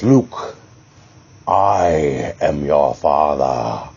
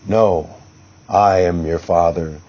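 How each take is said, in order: First: It is said slowly and dramatically. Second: It is said fast and undramatically.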